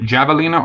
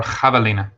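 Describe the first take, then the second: First: "javelina" with an English J at the start; J pronunciation. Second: "javelina" with the J said as H; H pronunciation. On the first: Asking chat how to say it, "javelina" with a hard English J. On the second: Asking chat how to say it, "javelina" with an H sound. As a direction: say "javelina" starting like "hah", the Spanish way. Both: Shown as a demonstration. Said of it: "Is it javelina or javelina".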